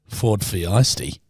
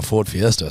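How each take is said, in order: First: "Fiesty" said like the word feisty; "Fiesty" leaning on the feisty sound; pun on Fiesta. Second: Said in the usual way. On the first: Shown as a demonstration. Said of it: "'cause she was being feisty". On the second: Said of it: "Sounds like she was more in a Ford Fiesty".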